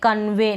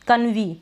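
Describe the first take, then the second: First: The word ends with an 'ay' sound. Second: The word ends with an 'ee' sound. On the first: The speaker calls it right. "अब हम इसको पढ़ रहे हैं कन्वे" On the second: The speaker calls it wrong. "नहीं ये गलत हो जाएगा ना"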